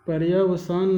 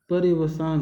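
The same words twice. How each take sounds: First: पर्यावसान with a long aa after र्य, par-yaa-vasaan; wrong long aa. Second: पर्यवसान with a short a after र्य, par-ya-vasaan; correct short a. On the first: Teacher flagging the wrong form, पर्यावसान with long yaa. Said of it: "पर्यावसान नहीं होता". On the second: Teacher giving the correct form, पर्यवसान with short ya. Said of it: "पर्यवसान होता है". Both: Shown as a demonstration.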